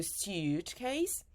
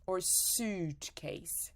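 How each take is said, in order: First: Suitcase slowly as syoot-case with a y glide; careful first option; slow contrast take. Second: Suitcase slowly as soot-case, no glide; careful second option. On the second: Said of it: "So, suitcase". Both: Shown as a demonstration.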